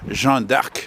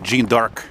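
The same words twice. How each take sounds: First: It is said with a French accent. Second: It is said with an English accent.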